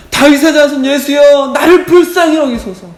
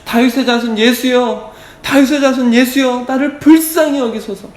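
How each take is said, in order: First: High, full-force shout for mercy; louder crying out. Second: High-pitched acted cry for mercy. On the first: Acted. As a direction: yell it desperately over the crowd. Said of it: "더 크게". (더 크게 절박하게 외치듯이) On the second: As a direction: call out high and urgent, short of full force. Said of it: "막 소리를 지릅니다". (높은 목소리로 소리 지르듯이)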